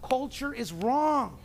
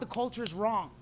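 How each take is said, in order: First: It is said noticeably louder. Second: It is said at normal volume.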